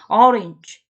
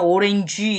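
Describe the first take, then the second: First: It is said with native English pronunciation. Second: It is said with Korean loanword pronunciation. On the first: The speaker calls it right. "오렌지 이렇게 안 한다는 거야" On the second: The speaker calls it wrong. "우리는 오렌지 이러지만"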